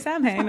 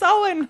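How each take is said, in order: First: It is said as spelled, like Sam Hain. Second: It is said with the Celtic pronunciation. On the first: The speaker calls it wrong. "They all would say Samhain" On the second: The speaker calls it right. "it's Samhain"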